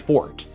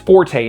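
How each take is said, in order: First: The word is said with one syllable. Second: The word is said with two syllables. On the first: This is the technically correct pronunciation but sounds odd. The speaker calls it right. "should be pronounced fort" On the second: This is the common everyday English pronunciation. The speaker calls it wrong. "widely pronounced as forte in English"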